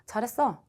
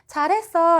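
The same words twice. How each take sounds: First: It is said in a cold, unpraising tone. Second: It is said in a warm, praising tone.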